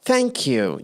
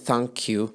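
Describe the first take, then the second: First: It is said warmly, with energy and feeling. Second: It is said flatly, without energy or feeling. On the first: The speaker calls it right. "لا نقول thank you" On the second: The speaker calls it wrong. "بدون مشاعر بدون power بدون emotions"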